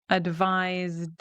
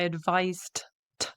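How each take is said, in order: First: The word ends with a voiced D sound. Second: The word ends with a voiceless T sound. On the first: The speaker calls it right. "we end in a D sound" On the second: The speaker calls it wrong. "We don't say I advised t with a T"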